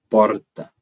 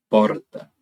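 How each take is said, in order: First: The R is a rolled, multiple trill. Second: The R is a rolled, multiple trill.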